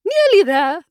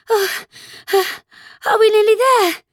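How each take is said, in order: First: High echo of the question; Queen's retort. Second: High, breathless question between gasps; panting. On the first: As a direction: throw the words back, high and brisk. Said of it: "the Queen repeated". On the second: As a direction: pant it out while running. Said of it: "Alice managed to pant out". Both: A narrator's reading.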